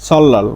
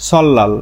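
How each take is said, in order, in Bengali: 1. মাঝের ধ্বনিটি উচ্চারিত হয় দ্বিত্ব l। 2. মাঝের ধ্বনিটি উচ্চারিত হয় দ্বিত্ব l।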